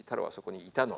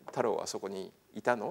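First: The pitch falls at the end. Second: The pitch rises at the end. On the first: It is not a question. "言えば疑問じゃなくなる" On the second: It is a question. "イントネーションで、太郎はそこにいたのって言えば疑問だし"

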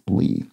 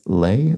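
First: The word does not sound like 'lay'. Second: The word sounds like 'lay'. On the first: The speaker calls it right. "Preferred pronunciation, says Dragon Traces, is lea" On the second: The speaker calls it wrong. "which I think I said as lay"

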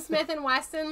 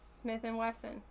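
First: The second name sounds like Weston, with a t. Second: The second name sounds like Wesson, without t. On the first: The speaker calls it wrong. "Oh, wrong. ... Not Weston" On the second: The speaker calls it right.

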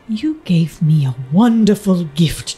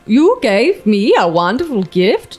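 First: It is spoken in a British accent. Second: It is spoken in a Swedish accent. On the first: "It's like a British" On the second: "take a beat with your best Swedish accent"

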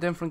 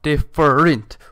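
First: The word is said in one run. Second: The word is split into separate syllables. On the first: The speaker calls it wrong. "I can't pronounce it right" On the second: The speaker calls it right. "if I break it up, I can fucking say it"

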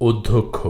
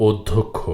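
The two takes are said the same way.

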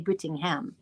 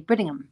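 First: The final syllable 'ham' is said fully. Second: The final syllable 'ham' is weak and reduced. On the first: This is how the listener's family says the name. "you say Brittingham" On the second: This is how the name is said in England. "in England, we'd say Brittingham"

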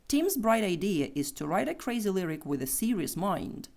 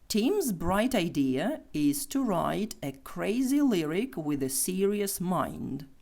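First: The sentence is spoken quickly. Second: The sentence is spoken slowly. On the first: "Тепер швидше" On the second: "Ще раз повільно"

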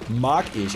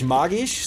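First: The stress is on the first syllable. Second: The stress is on the second syllable. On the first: It means 'I like it'. "sondern mag ich. Also von mögen, nicht Zauberei" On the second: It means magic. "Nicht mag ich"

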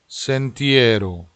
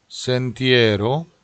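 The two takes are said the same way.

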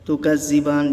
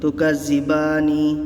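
First: The word stops and ends on a consonant. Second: The word continues and ends on a vowel. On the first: The reader pauses at this word. "তুকাজ্জিবান যদি দাঁড়ান আপনি" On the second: The reader continues without pausing. "যদি না দাঁড়ান তাহলে পড়বেন তুকাজ্জিবানি"

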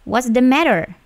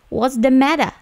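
First: It is said in an American accent. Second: It is said in a British accent.

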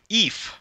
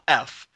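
First: The name begins with a long 'ee' sound. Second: The name begins with a short 'eh' sound. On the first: The speaker calls it wrong. "Ron Perlman calls him Eef" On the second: The speaker calls it right. "on the TV show, he's called F"

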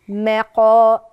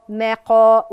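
Both takes have the same delivery.

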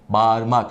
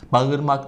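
First: The first vowel is lengthened. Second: The first vowel is short. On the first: The speaker calls it right. "yarım elif miktarı A'yı uzattık" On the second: The speaker calls it wrong. "Bağırmak değil"

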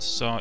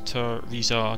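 First: The name is said with two syllables. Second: The name is said with three syllables. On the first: The speaker calls it wrong. "It's not Tizar" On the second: The speaker calls it right. "it's Tirizar"

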